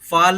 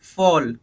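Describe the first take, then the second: First: The vowel is an open 'ah' sound. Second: The vowel is a rounded 'aw' sound. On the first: The speaker calls it wrong. "फाल नहीं" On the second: The speaker calls it right. "नहीं फॉल"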